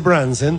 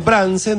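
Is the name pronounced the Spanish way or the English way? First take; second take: English; Spanish. First: It is pronounced with affected English-style sounds. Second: It is pronounced with plain Spanish sounds. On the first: A snob showing off would say it this way. The speaker calls it wrong. "hay algún tiringo que cada tanto ... dice Branson" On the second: An ordinary local would say it this way. The speaker calls it right. "en vez de decir Branson"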